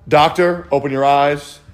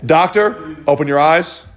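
Both takes have the same delivery.

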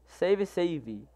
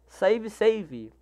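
First: Same words said much softer; quiet echo of the chat; softer repeat. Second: Said in the usual way. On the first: Shown as a demonstration. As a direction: drop the volume on the echo. Reading chat aloud, repeats.

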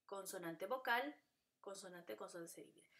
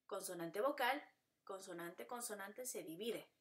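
The two takes are said the same way.

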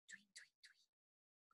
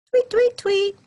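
First: Slow breathless whispered tweets; tiny whispered birdsong. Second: Loud high chirpy tweets; high birdsong tweets; bird tweets. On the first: Shown as a demonstration. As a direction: barely whisper the chirps. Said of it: "but much quieter than before". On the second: Pretend. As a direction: chirp out brightly. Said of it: "That's how they reply".

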